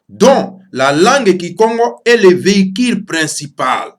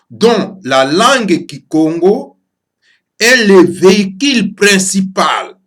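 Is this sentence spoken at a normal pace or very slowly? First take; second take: normal; very slowly. First: It is spoken at a normal pace. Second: It is spoken very slowly.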